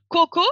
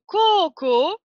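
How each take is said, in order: First: "koko" with two short O's; short vowels. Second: "koko" with both O's drawn out, kookoo; long vowels. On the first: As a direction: say "koko" quickly, neither O held. (« koko » avec deux o brefs) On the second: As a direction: hold each O of "koko" slowly. (« koko » avec les deux o allongés) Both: Shown as a demonstration. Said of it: "il s'agit d'un allongement de la voyelle".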